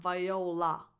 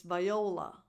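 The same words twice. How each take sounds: First: "viola" ending in a full, clear LAH; vai-oh-LAH, last vowel unreduced in "viola"; over-defined last vowel. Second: "viola" with a reduced final la; "viola", last vowel close to a schwa; schwa-like ending. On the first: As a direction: say "viola" wrongly with a defined final ah. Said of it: "It's not viola". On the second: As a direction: say "viola" as vai-OH-luh, falling. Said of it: "It's like a more defined schwa". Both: Shown as a demonstration.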